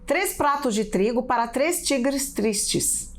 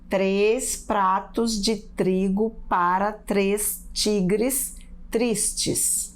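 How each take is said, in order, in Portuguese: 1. A frase é dita muito rápido. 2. A frase é dita muito devagar. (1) "Perceberam como eu falei rapidinho?" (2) "Não vale falar devagar assim"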